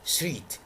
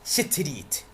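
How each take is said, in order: First: The three opening consonants are said together. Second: A vowel is inserted between the opening consonants. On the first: The speaker calls it right. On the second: The speaker calls it wrong.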